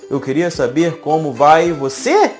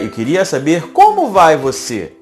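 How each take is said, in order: First: It sounds like a statement until the last word. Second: It has question intonation from the very start.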